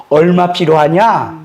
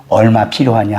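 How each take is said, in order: First: God's voice again, slowed. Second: God's voice. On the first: God asks the pastor how much he needs, slow and assured. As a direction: let each word land slowly and confidently. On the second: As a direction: speak as God, calm and sure. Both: Retold or imitated. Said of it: "그 음성이 정말 부드럽고 그 음성이 너무 확신에 찬".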